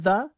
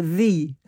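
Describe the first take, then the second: First: "the" with a short uh vowel, thuh; "the" pronounced thuh with a schwa. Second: "thee" with a long ee vowel; "thee" pronounced with a full long ee. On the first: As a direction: say "the" as thuh, unstressed. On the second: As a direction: say "thee" rhyming with see. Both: Shown as a demonstration. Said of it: "whether a person said".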